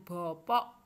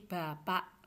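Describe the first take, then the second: First: The vowels sound like 'o'. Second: The vowels sound like 'a'. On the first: The speaker calls it wrong. "Bukan bopok" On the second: The speaker calls it right. "tapi bapak"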